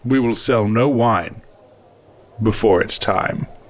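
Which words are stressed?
none. No special stress falls on no wine.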